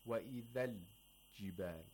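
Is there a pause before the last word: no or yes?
yes. There is a pause before the last word. The speaker calls it wrong. "We don't say"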